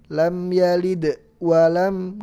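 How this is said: There is a pause after the d of yalid. The speaker calls it wrong. "nggak boleh"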